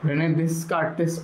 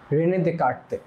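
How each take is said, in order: First: The name ends with a final s sound. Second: The name ends without a final s sound. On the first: The speaker calls it wrong. "পড়তে পারো, কিন্তু এটা আসলে এরকম না" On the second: The speaker calls it right. "French নামে বানানো এই এসগুলো উচ্চারণ হতো না"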